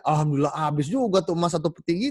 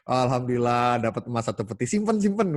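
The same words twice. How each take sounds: First: Higher, louder cheerful relief; the generous man rejoicing after giving everything; happy to be rid of it. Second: Hug the gold close like a miser; ordinary people hoarding their windfall; greedy hoarder. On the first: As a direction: glad the gold is all gone. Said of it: "Happy malah kehabisan emas". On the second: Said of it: "beda banget kan". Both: Acted.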